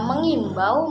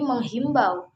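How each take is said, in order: First: No h sound comes before the i. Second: An h sound comes before the i. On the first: The speaker calls it right. "yang sebenarnya" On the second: The speaker calls it wrong. "seringkali salah dalam pengucapan"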